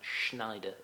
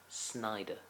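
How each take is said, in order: First: The name begins with an 'shn' sound. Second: The name begins with an 'sn' sound. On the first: The speaker calls it wrong. "It's not Schneider" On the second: The speaker calls it right. "It's Snyder"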